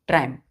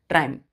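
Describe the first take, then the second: The two takes are said the same way.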